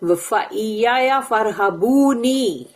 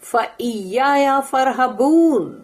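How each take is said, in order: First: The last word ends with an added ee vowel. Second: The last word ends on the n sound. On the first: The word is read in full, carrying the meaning 'me'. "वहां पर नून के नीचे जेर है" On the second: The verse is stopped on at this point. "यहां पर फरहबून मैं बोल रही हूं क्योंकि फुल स्टॉप है ना"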